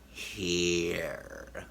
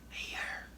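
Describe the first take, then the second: First: It is said quietly in a creepy way. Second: It is said quietly in a plain way.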